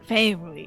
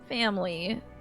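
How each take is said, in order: First: The word is said in a deep, gruff impression voice. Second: The word is said in a normal speaking voice.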